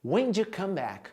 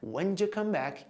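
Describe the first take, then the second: The two takes are said the same way.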